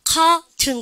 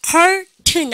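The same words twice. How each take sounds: First: Curtain slowly as "kaa-tun", no R; drawn-out R-less curtain; British pronunciation. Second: Curtain slowly, with the R sounded; stretched first syllable of curtain, R audible; R-ful version. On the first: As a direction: stretch the "aa" in curtain, release the T. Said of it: "curtain 그러는데". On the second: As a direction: say curtain as a drawn-out "karr-tun". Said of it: "안 그러고 뭡니까". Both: Shown as a demonstration.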